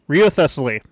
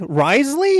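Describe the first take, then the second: First: The name is read out as 'Rio Thessaly'. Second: The name is said as short 'Risley'. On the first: The speaker calls it wrong. "Rio Thessaly is what I'm attempting" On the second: The speaker calls it right. "Risley is how you pronounce that name"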